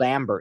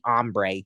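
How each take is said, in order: First: It is said like the English word amber. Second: It is said like the Spanish word hambre. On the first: It is said the way the voice assistant says it. The speaker calls it wrong. "I just prefer to say Amber because that's how she says it" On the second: It is said as the original Spanish word. The speaker calls it right. "It's actually Ombre is the correct way"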